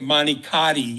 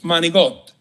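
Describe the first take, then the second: First: The word ends with a full final vowel. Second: The word ends without its final vowel. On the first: It sounds Americanized. The speaker calls it wrong. "you can't say manicati" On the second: It sounds like an Italian speaker. The speaker calls it right. "It's manigot"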